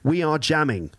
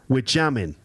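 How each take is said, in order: First: The opening is said as two full words, 'we are'. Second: The opening is said as one contracted word, 'we're'. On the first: The speaker calls it wrong. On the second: The speaker calls it right.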